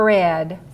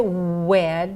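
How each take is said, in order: First: The word begins with an R sound. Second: The word begins with a W sound. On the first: The speaker calls it right. "say er, red" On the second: The speaker calls it wrong. "Don't say wed"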